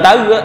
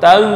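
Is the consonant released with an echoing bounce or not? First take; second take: bounce; no bounce. First: The consonant ends with a small echoing bounce. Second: The consonant ends smoothly without any bounce. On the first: The speaker calls it wrong. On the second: The speaker calls it right.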